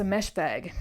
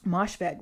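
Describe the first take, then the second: First: "Meshveg" with an E in the first syllable; mispronounced surname. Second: "Moshfegh" with an O in the first syllable; corrected surname. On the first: Slipping on an author's surname, "Meshveg" with an E. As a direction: say "Meshveg", first vowel as in mesh. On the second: Correcting her slip on the surname, "Moshfegh" with an O. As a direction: say "Moshfegh", first vowel as in mosh. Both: Real, not acted.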